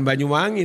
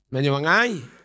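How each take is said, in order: First: It is said in a standard accent. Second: It is said in the local Banyuwangi accent. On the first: The speaker calls it wrong. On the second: The speaker calls it right.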